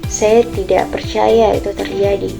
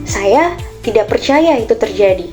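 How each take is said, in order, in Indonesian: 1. Kalimat ini diucapkan dengan nada sedih. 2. Kalimat ini diucapkan dengan nada terkejut.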